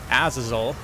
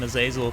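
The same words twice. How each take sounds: First: The ending does not sound like hazel. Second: The ending sounds like hazel. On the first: This is how the game pronounces the name. The speaker calls it wrong. "as the, uh, the guys in-game call him that, which I, I must say I absolutely hate that pronunciation" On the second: This is the speaker's preferred pronunciation. The speaker calls it right. "I'm going to re just refuse to use it and call him Azazel because, again, Azazel nut"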